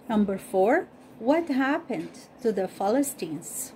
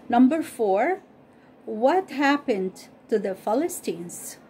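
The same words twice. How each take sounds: The two takes are said the same way.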